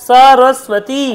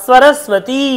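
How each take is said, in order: The two takes are said the same way.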